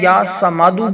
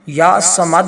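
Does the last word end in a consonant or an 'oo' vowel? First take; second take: oo vowel; consonant. First: The last word ends with an added 'oo' vowel. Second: The last word ends on the consonant d. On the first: "दाल के ऊपर पेश" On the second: "या समद भी पढ़ सकते हैं"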